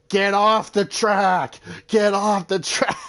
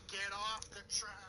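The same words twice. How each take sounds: First: Loud, higher, slow drawn-out yelling; hammed-up track rage; mock yell. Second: Much softer, higher, held back; toned-down quote after noticing the volume; hushed reprise. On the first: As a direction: bellow it at the driver in your way. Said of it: "he was yelling at Natalie Decker". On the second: Retold or imitated. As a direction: say the yell under your breath. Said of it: "you heard my volume".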